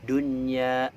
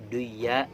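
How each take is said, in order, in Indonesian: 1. Bunyi n di tengah dibaca dengan jelas. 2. Bunyi n di tengah dihilangkan. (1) "ini maka harus dibaca jelas" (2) "nggak boleh kita baca duya"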